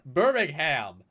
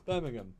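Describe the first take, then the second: First: The final syllable is a full, clear 'ham'. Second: The final syllable is weak, without a stressed h. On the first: The speaker calls it wrong. "It's not Birmingham. Why? Why is there ham?" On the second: The speaker calls it right. "This is Birmingham"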